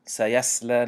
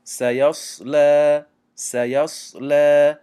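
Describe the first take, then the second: First: سیصلی with a thin سین sound, wrong way; wrong thin sad. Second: سیصلی slow and louder, heavy round صاد; full sad. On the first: Teacher showing students the wrong thin sad. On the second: Teacher drilling the heavy sad for students. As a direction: say سیصلی twice with the mouth full. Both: Shown as a demonstration.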